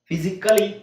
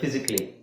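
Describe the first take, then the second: First: The vowel before the final 'ly' is sounded. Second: The vowel before the final 'ly' is dropped.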